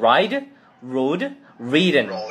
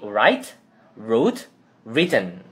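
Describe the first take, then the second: First: Write and wrote end with a soft d sound. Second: Write and wrote end with a crisp t sound. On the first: The speaker calls it wrong. "jadi bukan ride, rode, written, bukan" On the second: The speaker calls it right. "Tapi write, wrote, written"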